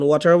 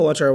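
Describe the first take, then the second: First: "ওয়াটার" with a rounded first vowel, WAW-tar; native-style variant. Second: "ওয়াটার" with an open first vowel, WAH-tar; alternative pronunciation. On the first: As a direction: say "ওয়াটার" with an "aw" sound at the start. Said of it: "এটা অনেক যে native এরকম উচ্চারণ করে". ("ওয়াটার" প্রথমে "অ" ধ্বনি দিয়ে, ওঅটার) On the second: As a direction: say "ওয়াটার" with an "ah" sound at the start. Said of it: "ওয়াটার বলতে পারেন". ("ওয়াটার" প্রথমে "আ" ধ্বনি দিয়ে, ওয়াটার) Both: Shown as a demonstration.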